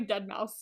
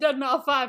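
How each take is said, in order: First: The name ends with the word 'mouse'. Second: The name ends with the word 'five'. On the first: The speaker calls it right. "It's it's literally dead mouse" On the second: The speaker calls it wrong. "You know that's not how you say it"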